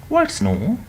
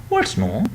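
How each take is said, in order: No difference in how they are said.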